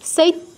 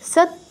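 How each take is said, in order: First: An extra i sound comes before the t. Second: No i sound comes before the t. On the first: The speaker calls it wrong. "আমরা উচ্চারণ করি কি অনেকে সৈত্য" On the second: The speaker calls it right. "দন্তস্বর পরে কোনো ই আনবো না"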